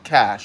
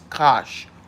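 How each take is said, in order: First: The vowel sounds like the a in cash. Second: The vowel sounds like the o in gosh. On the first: The speaker calls it wrong. "it's not Cash" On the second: The speaker calls it right. "It's Kosh Wayne"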